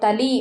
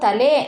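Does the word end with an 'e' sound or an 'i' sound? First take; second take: i; e. First: The word ends with an 'i' vowel. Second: The word ends with an 'e' vowel. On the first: This is the Dharwad-region form. "ಅವರು ತಲಿ ಅಂತ ಅಂತಾರೆ" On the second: This is the Mysore-region form. "ನಾವು ತಲೆ ಅಂತ ಬಳಸಿದ್ರೆ"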